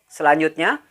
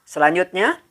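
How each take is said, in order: Both takes have the same delivery.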